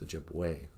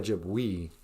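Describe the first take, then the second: First: The final vowel sounds like 'ay'. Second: The final vowel sounds like 'ee'. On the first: The speaker calls it right. "E's sound like a" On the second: The speaker calls it wrong. "You don't say Ojibwe"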